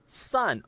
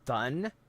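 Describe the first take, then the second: First: The word begins with a clear 's' sound. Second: The word begins with a lisped 'th' sound. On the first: "instead of sun" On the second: "saying thun instead of sun"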